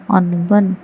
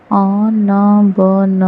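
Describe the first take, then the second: First: Said in the usual way. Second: अनबन split into slow syllables अ-न-ब-न; spelled out slowly. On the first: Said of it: "whole word after sounding out". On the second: Shown as a demonstration. Teacher sounding out अनबन slowly in a reading lesson. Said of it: "syllable-by-syllable then whole".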